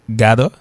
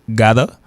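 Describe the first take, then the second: The two takes are said the same way.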